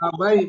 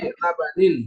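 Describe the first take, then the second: First: The word ends in an 'ai' sound. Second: The word ends in an 'anin' sound. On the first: The speaker calls it wrong. "Bukan labai" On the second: The speaker calls it right.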